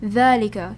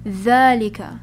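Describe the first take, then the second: First: The first vowel is said long. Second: The first vowel is said long.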